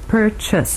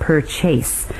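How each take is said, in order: First: The second vowel is reduced to a weak schwa. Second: The second vowel is a full A sound. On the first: The speaker calls it right. "It reduces to what we call a schwa, a weak sound" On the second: The speaker calls it wrong. "we don't say purchase with an A sound"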